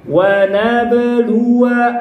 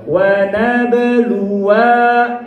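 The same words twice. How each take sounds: First: The final wa of nabluwa is kept short. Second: The final wa of nabluwa is held long. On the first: The speaker calls it right. "Wa-nya dibaca pendek" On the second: The speaker calls it wrong. "eta berarti alifnya dibaca"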